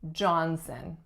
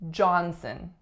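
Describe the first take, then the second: No difference in how they are said.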